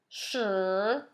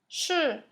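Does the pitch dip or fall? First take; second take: dip; fall. First: The pitch dips low, then rises. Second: The pitch drops sharply downward. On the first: "All of those are third tone" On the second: "it goes straight down"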